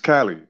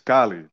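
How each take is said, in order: First: The A is said the American English way. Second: The A is said the Spanish way.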